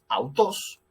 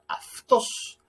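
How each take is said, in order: First: The first syllable is said as a diphthong 'au'. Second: The first syllable is said 'af' with a fricative. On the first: This is the older classical pronunciation. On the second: This is the later Koine pronunciation.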